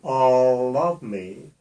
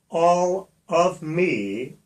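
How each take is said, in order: First: The L is carried over onto the next word. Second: The L stays separate from the following word. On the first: The speaker calls it right. "I should move the L to the O" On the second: The speaker calls it wrong. "all of me is incorrect"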